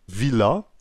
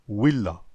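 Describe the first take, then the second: First: The word begins with a 'v' sound. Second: The word begins with a 'w' sound.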